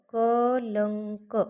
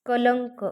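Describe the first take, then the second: First: कलंक drawn out very slowly, nasal before क held; slow demo pronunciation. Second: Said in the usual way. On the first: Shown as a demonstration. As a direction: stretch कलंक slowly to show the ङ sound. (कलंक सावकाश, अनुस्वार लांबवून) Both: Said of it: "याच्यामध्ये कुठला".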